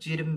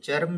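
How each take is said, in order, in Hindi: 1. यह शब्द 'i' स्वर के साथ बोला जाता है। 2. यह शब्द 'a' स्वर के साथ बोला जाता है। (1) "चिर्म भी कहते हैं" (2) "इसको चर्म भी कहते हैं"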